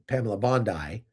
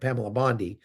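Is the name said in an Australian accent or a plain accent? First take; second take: Australian; plain. First: The name is said in an Australian accent. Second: The name is said in a plain accent.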